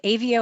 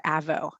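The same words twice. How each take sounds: First: "Avio" as AY-vee-oh; long-A pronunciation. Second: "Avo" as AV-oh; short-A pronunciation. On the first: Host checking guest's company name, "Avio" said AY-vee-oh. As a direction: say "Avio" with a long A and three syllables. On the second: Host offering another company-name reading, "Avo" said AV-oh. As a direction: say "Avo" with a short flat A, two syllables. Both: Shown as a demonstration. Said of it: "not sure how you pronounce".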